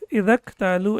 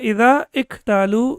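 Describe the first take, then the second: First: The words run together without the initial vowel. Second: The initial vowel of iktalu is clearly pronounced. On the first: The speaker calls it right. "We will pronounce it as الَّذِينَ Idak talu" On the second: The speaker calls it wrong. "we will not pronounce it as Alladina idha iktalu"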